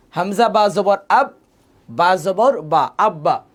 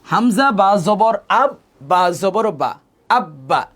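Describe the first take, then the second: First: Hamza বা জবর আব, বা জবর বা very slow, আব্বা with a held double ব; the second take, বা জবর বা stretched out long; teacher repeats the demo. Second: Hamza বা জবর আব drawn out slowly, then আব্বা with a doubled ব; teacher's slow demo. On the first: (আবার ধীরে বানান, আব্বা দ্বিত্ব করে) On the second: (ধীরে বানান করে আব্বা, ব দ্বিত্ব করে) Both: Shown as a demonstration. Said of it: "তাহলে খেয়াল করুন".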